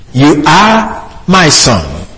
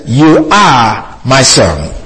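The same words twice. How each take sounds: First: Said in the usual way. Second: You hit first, slow and weighty; You are my son with You emphatic; stress on You. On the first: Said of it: "because it says". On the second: Shown as a demonstration. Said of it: "the word "you" is emphasized".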